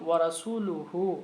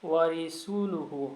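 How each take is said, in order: First: The vowel after the r is a. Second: The vowel after the r is i. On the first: The speaker calls it right. "ওয়া রাসূলুহু এর স্থলে" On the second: The speaker calls it wrong. "রার নিচে জের পরে সে ব্যক্তি উচ্চারণ করেছিল"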